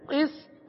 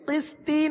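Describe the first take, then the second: First: The word ends on a bounced t sound. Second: The word ends with an extra i vowel. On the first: The speaker calls it right. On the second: The speaker calls it wrong.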